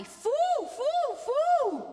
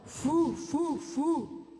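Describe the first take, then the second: First: Very high owl hoots; loud, soaring falsetto owl hoot; hooty, up high. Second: Lower-placed owl hoots; low version of an owl hoot; hooty, down low. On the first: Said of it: "Let's do it up high". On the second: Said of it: "Let's do it down low". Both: Shown as a demonstration.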